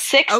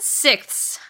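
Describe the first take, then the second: First: The word ends in a th sound, no extra s. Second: The word ends in th plus an extra s. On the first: The speaker calls it right. "yes, that's correct" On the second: The speaker calls it wrong. "I've been saying it sixths my entire life"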